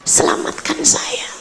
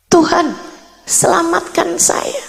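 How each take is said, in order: First: Soft, whispered plea; retold whispered prayer. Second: High, voiced plea to God; retold pleading prayer. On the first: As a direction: beg God under your breath, nearly voiceless. (doa memohon sambil berbisik) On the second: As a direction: pray imploringly, in a raised pitch. (doa memohon dengan nada tinggi) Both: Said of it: "Saya kemudian mulai berdoa".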